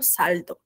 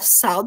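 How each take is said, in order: First: It is said with a Spanish pronunciation. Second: It is said with a Brazilian Portuguese pronunciation. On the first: "eles falam saldo" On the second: "A gente fala saldo"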